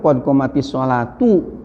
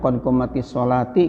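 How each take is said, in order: First: The last word ends with a u vowel. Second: The last word ends with an i vowel. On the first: The word is the subject and takes the nominative case. The speaker calls it right. "Yang benar itu qad qomatis sholatu" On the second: The subject wrongly takes the genitive case. The speaker calls it wrong. "kadang-kadang ada yang mengucapkannya qad qomatis sholati"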